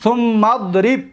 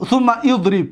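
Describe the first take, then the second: First: «ثم اضرب» run together as thummadrib; joined thummadrib. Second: «ثم اضرب» in two words, thumma idrib; unjoined thumma idrib. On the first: Teacher gives the correct reading, «ثم اضرب» joined as thummadrib. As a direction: drop the alif in «ثم اضرب», mim straight into dad. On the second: Teacher gives the rejected reading, «ثم اضرب» as thumma idrib. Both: Shown as a demonstration.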